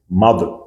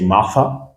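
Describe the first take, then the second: First: The middle consonant is a voiced th. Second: The middle consonant is not a voiced th. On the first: The speaker calls it right. "but we say mother" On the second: The speaker calls it wrong. "We don't say, let's say Martha"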